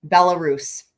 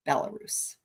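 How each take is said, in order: First: Said in the usual way. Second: "Belarus" breathed out in a whisper, no voice; whispered name. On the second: Shown as a demonstration.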